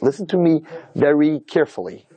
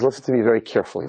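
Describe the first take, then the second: First: Father's measured, word-by-word warning; slow, deliberate warning. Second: Said in the usual way. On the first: Retold or imitated. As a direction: spell it out slowly, as a stern warning. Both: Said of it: "This is exactly how he said it".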